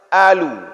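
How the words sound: It begins with a glottal stop. This is how Egyptians say it. "Orang Mesir itu mengucapkan huruf qaf dengan ucapan a"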